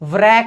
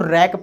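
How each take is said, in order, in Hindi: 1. इस शब्द की शुरुआत W की आवाज़ से होती है। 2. इस शब्द की शुरुआत R की आवाज़ से होती है। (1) "आप इसको व्रैक नहीं पढ़ेंगे" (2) "डब्लू जो होता है वो साइलेंट होता है"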